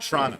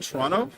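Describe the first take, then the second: First: It is clipped to two syllables, like trahna. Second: It is said with all three syllables. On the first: The speaker blends in as a local. "like T R A N N A" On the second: The speaker sounds like an outsider. "when you say Toronto"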